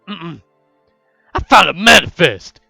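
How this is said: It is said in a put-on character voice.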